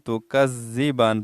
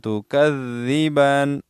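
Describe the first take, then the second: First: The middle consonant is a single z sound. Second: The middle consonant is a doubled th sound. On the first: The speaker calls it wrong. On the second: The speaker calls it right.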